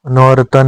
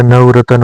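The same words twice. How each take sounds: First: नौ रतन said as two words, "nau ratan"; the incorrect split form नौ रतन, "nau ratan"; wrong pronunciation. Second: नवरतन said as one word, "nav-ratan"; the correct form नवरतन, "nav-ratan"; correct pronunciation. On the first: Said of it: "नौ रतन नहीं होता". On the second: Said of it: "नवरतन होता है". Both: Shown as a demonstration.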